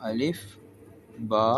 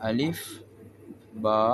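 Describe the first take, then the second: The two takes are said the same way.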